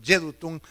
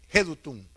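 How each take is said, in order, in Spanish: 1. El nombre se dice con sonidos ingleses. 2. El nombre se dice con sonidos españoles.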